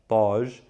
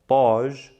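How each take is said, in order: First: It begins with a heavy, emphatic t sound. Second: It begins with a heavy, emphatic t sound.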